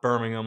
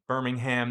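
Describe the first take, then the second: First: It is said the British way. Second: It is said the American way. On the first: It names the city in the UK. The speaker calls it wrong. "not Birmingham like in the U K" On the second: It names the city in Alabama. The speaker calls it right. "it's Birmingham"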